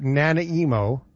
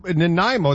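First: "Nanaimo" drawn out as NA-na-EE-mo; mispronounced as Nana Emo. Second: Said in the usual way. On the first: Shown as a demonstration. Host joking about the town's name, deliberate mispronunciation NA-na-EE-mo for "Nanaimo". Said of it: "My emo grandmother?". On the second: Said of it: "It is Nanaimo".

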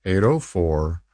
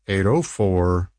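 Both takes have the same delivery.

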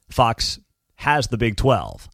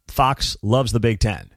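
First: "has" leaned on after a pause following Fox; pause, then put the weight on "has"; stress on has. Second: "loves" leaned on in a low, deliberate line; stress on loves. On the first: Host contrasts how Fox treats two leagues, stress on "has". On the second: Host contrasts how Fox treats two leagues, stress on "loves". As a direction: put the weight on "loves". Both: Real, not acted.

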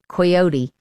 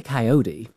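First: Coyote said the English way, KY-OH-tee; British coyote. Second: Coyote said the American way, ky-OH-dee. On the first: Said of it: "in my English accent". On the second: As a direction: say coyote American style, flapped t. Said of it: "We say coyote". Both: Shown as a demonstration.

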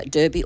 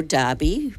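First: "derby" said as DUR-bee; "derby" rhyming with "Kirby"; alternate pronunciation. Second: "derby" said as DAR-bee; "derby" sounded like "Darby"; alternate pronunciation. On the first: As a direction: say "derby" with an ur vowel in the first syllable. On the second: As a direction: say "derby" with an ah vowel in the first syllable. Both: Shown as a demonstration. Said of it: "whichever way you say it".

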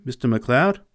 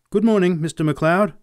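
First: Said in the usual way. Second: Bright raised greeting; cheerful boyish greeting. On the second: Acted. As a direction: call out a cheery good morning. Boy greets the farmer.

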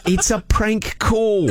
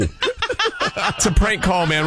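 First: Drawn-out fake Aussie accent; slow reveal in a put-on Australian accent; broad mock-Australian, stretched out. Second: Said in the usual way. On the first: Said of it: "My accent went over".

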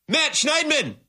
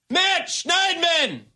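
First: Calling the name out high in disbelief; exasperated call-out. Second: High and slow, stretching the name out; drawn-out exasperated wail. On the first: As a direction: cry his name like he let you down. Host exasperated at reporter's question. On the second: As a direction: moan the name in slow despair. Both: Real, not acted.

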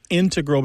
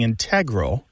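First: "integral" stressed on its first syllable, IN-tegral; "integral" as IN-tuh-grul; old first-syllable stress. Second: "integral" stressed on its second syllable, in-TEG-ral; "integral" as in-TEG-rul. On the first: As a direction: hit IN in "integral". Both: Shown as a demonstration. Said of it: "becoming stressed on the second syllable".

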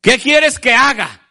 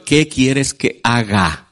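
First: Higher, slow earnest question; Saul asking Jesus. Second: Lower, very slow humble question; humble prayer. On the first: Saul asking the Lord what to do, slow and higher. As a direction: ask it slowly, ready to obey. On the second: Believers asking the Lord, low slow humble plea. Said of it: "No le preguntamos al Señor". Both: Acted.

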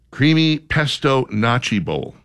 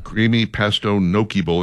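First: "gnocchi" said as NAH-chee, with a ch; mispronounced gnocchi. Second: "gnocchi" said as NOH-kee, with a k; corrected gnocchi. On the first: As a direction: read it out slowly, gnocchi as "notchy". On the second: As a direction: reread with gnocchi as "nokey". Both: Real, not acted. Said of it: "I've always heard it pronounced gnocchi".

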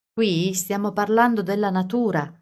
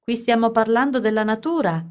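First: Said in the usual way. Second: Carly yells Alice's words at Edward; yelling. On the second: A narrator's reading. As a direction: yell it back at the boy. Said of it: "si mise a urlare a Edward".

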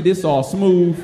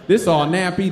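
First: This one is smooth; contrast on smooth. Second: Nappy leaned on as the rough one; contrast on nappy. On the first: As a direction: set smooth against nappy. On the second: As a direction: set nappy against smooth. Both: Shown as a demonstration. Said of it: "contrasting the two fabrics".

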